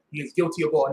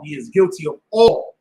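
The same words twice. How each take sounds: First: Said in the usual way. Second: He is guilty of all said louder, stress on all with a rising end; emphatic repeat. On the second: Shown as a demonstration. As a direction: punch the word all for the congregation.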